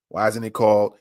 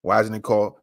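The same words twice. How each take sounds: The two takes are said the same way.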